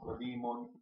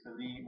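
First: The name ends with an added vowel ending. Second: The name ends without a final vowel ending. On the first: "leaving the last letter unpronounced with the vowel or not" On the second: "leaving the last letter unpronounced with the vowel or not"

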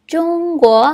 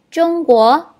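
Both takes have the same delivery.

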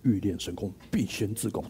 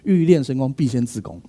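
First: The voice is low and deep. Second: The voice is at its normal pitch. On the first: The speaker calls it right. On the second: The speaker calls it wrong.

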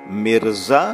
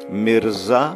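Both takes have the same delivery.

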